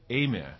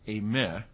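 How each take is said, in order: First: The stress is on the first syllable. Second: The stress is on the second syllable. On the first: It means to come or go. "but eime" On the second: It is the linking verb. "not eime, which is the linking verb"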